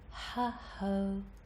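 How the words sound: Each vowel starts with a breathy h sound. "there's breath first, like a small H sound"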